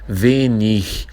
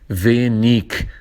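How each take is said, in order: First: The ending is a soft 'ch' sound. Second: The ending is a hard 'g' sound. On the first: This is how the local dialect speakers say it. "nós pronunciamos" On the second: This is how many people in Germany say it. "muitas pessoas da Alemanha, vários professores também, eles dizem"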